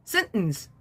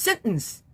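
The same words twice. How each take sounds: Both takes have the same delivery.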